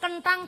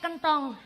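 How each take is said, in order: First: The second vowel is an open 'a' sound. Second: The second vowel is a rounded 'o' sound. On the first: "Dadi nek cara Cilacap kentang" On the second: "cara kene kentong"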